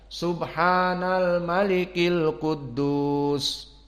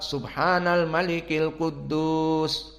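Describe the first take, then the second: First: It is said with long, drawn-out vowels. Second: It is said at normal length.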